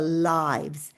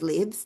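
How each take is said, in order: First: It is pronounced the way the noun sounds. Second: It is pronounced the way the verb sounds. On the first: It is the plural of life. The speaker calls it right. "here it's a noun. It's our lives" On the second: It is the action of living. The speaker calls it wrong. "we do pronounce it as lives when it is when we use it as a verb"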